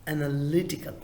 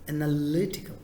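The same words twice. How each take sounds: First: The stress is on the third syllable. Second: The same.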